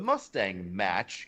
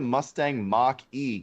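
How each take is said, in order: First: The name is said as one word 'match'. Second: The name ends with a separate letter E.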